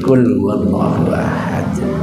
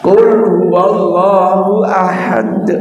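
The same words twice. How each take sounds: First: It is recited quietly, just audibly. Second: It is recited loudly and openly. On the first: It is recited so only the reciter hears it. "Tidak keras, tidak sirri, tapi yusmi'una, diperdengarkan" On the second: It is recited aloud for others to hear. "Yang pertama membaca jahar"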